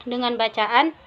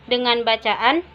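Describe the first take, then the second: No difference in how they are said.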